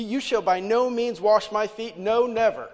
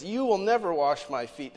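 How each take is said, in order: First: Loud, slow, higher, near-violent refusal; emphatic refusal. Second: Peter refusing Jesus, a bit louder and firm; firm refusal. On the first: Peter flatly refusing his Lord, loud and emphatic. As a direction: make "by no means" and "No, never" land like a blow. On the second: Peter refuses Jesus washing his feet, firm and louder. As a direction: put your foot down on "never". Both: Acted. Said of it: "The Greek is so emphatic".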